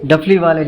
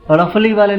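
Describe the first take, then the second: First: The first consonant is a full stop sound. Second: The first consonant is a quick tongue flap. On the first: The speaker calls it right. "डफली बोलना है तो ड बोलना पड़ेगा" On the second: The speaker calls it wrong. "उसको हम रफली वाले नहीं बोल सकते"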